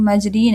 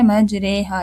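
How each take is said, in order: First: The vowel after r is a long ee. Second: The vowel after r is tilted toward e. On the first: "लेकिन मजरीन है" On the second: "इसको हमने पढ़ना है मजरेहा"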